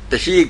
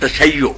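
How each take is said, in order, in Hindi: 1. यह शब्द सादे लंबे 'ee' से खत्म होता है। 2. यह शब्द दोहरे 'y' और 'yo' से खत्म होता है। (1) "तशी कोई लफ्ज नहीं है" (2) "लफ्ज है तशय्यो"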